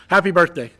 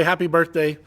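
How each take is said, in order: First: "happy birthday" called out louder, with a lift on "happy"; louder birthday wish. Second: Said in the usual way. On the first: Real, not acted. Friend closes the message with a louder happy birthday. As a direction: sign off with a bigger "happy birthday". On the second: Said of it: "So happy birthday".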